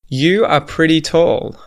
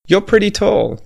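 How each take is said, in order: First: The words are said in full, uncontracted. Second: The words are squeezed into one contracted syllable.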